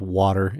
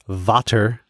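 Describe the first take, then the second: First: The word begins with a W sound. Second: The word begins with a V sound. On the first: This is how an English speaker would say it. "instead of water" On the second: This is how a German speaker would say it. "Their closest substitutes are V or V for W"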